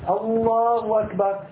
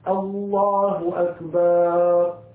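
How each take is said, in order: First: The h sound in the first word is dropped. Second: The vowel after the b is drawn out long. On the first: "إسقاط الهاء من لفظ الجلالة" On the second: "يشبع حركة الباء"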